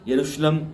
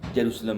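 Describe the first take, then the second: First: The word begins with a 'y' sound. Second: The word begins with a 'j' sound. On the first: "य और ज का जो ये अंतर है वो उच्चारण में चलता है" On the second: "य और ज का जो ये अंतर है वो उच्चारण में चलता है"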